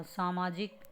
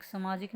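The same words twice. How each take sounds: First: सामाजिक said as "saamaajik"; long first "aa" in सामाजिक; correct pronunciation. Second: सामाजिक said as "samaajik"; short first "a" in सामाजिक; wrong pronunciation. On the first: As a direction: clear saa-maa-jik for सामाजिक. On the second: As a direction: misread सामाजिक as sa-maa-jik. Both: Shown as a demonstration. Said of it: "सामाजिक नहीं होता".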